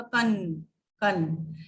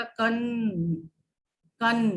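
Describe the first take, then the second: First: कन with a clear n closing the syllable; anusvar kan. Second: कन with a nasalized a through the nose, no full n; nasal vowel kan. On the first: Teacher contrasting bindi and chandrabindu, crisp कन. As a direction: end कन on a firm n. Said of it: "देखिए जैसे मैं बोलती हूँ". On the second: Teacher contrasting chandrabindu with bindi, nasal कन. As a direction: let कन ring in the nose. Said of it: "अनुनासिक यानी कि चंद्र बिंदी लगा देंगे". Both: Shown as a demonstration.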